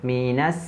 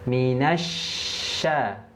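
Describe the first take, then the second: First: The consonant is a sharp hissing s sound. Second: The consonant is a spread sh sound. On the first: The speaker calls it wrong. "Jangan sampai minas sa sa" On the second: The speaker calls it right. "Shin makhrajnya tengah lidah"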